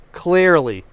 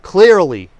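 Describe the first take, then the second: First: Said in the usual way. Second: Clearly punched louder; emphatic stress. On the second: Real, not acted. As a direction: hit the word clearly hard. Stressing point in political rant.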